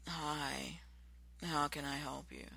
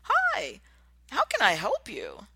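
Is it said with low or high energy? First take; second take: low; high. First: It is said flatly with low energy. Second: It is said eagerly with high energy.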